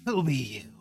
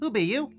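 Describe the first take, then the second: First: It is said in a raspy voice. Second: It is said in a plain voice.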